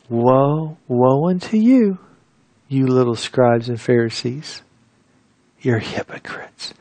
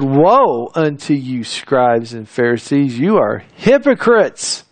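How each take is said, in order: First: The words are spoken in a mild tone. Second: The words are spoken in a sharp tone.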